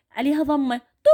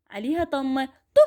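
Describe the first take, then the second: No difference in how they are said.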